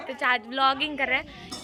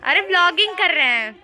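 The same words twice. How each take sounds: First: Said in the usual way. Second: Raised, higher explanation to the uncle; louder explaining. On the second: Real, not acted. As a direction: call it out so the uncle hears. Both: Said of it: "ये क्या है?".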